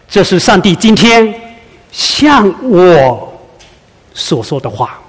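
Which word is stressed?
向我. The word 向我 carries the emphasis. The message is addressed to me personally.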